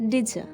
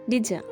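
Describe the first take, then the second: Both takes have the same delivery.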